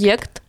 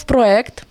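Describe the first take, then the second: First: Проєкт said pro-YEKT, with a clear y; Y glide before E. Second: Проєкт said pro-EKT, without a y glide; hard E, no Y. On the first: Explaining the changed norm, проєкт said as pro-YEKT. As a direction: put a y between o and e in проєкт. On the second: Explaining the older norm, проєкт said as pro-EKT. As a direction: open straight from o into e in проєкт. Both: Shown as a demonstration. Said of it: "потім зробили проєкт".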